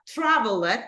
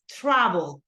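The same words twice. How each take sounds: First: The ending is pronounced as a full extra syllable. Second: The ending is a short, barely heard d sound. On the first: The speaker calls it wrong. "it's not traveled" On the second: The speaker calls it right. "it's traveled"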